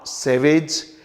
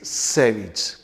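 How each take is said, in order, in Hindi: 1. अंत 'ayj' जैसा बोला जाता है। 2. अंत 'ij' जैसा बोला जाता है। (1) "इट्स नॉट सैवेज" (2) "इट्स सैविज"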